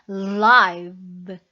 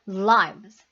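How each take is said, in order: First: The word is said slowly and drawn out. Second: The word is said quickly at normal speed. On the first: "슬로우 모션으로 한다면" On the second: "조금 빠르게 한다면"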